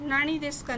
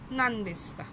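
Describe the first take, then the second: First: The first word is said as two-syllable nani. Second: The first word is shortened to nan. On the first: The speaker calls it wrong. "नाणी देस्का नाही म्हटलंय" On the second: The speaker calls it right. "तर नांदेस्का"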